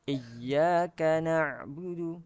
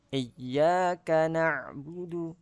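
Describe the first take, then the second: The two takes are said the same way.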